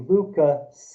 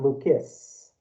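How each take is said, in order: First: The name ends with an added vowel sound. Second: The name ends with a strong S sound. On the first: A Chinese speaker's habit of ending syllables in vowels. The speaker calls it wrong. "grandmother will say Lucas" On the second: The English ending with a strong final consonant. The speaker calls it right. "not Lucas"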